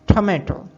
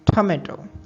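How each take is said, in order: First: The word is said in an American accent. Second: The word is said in an American accent.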